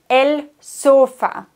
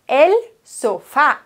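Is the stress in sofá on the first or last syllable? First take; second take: first; last. First: The stress is on the first syllable. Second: The stress is on the last syllable. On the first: The speaker calls it wrong. "Die meisten sagen el sofa, weil sie das im Deutschen eben auch so aussprechen" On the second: The speaker calls it right. "Die Betonung auf der Silbe mit Akzent"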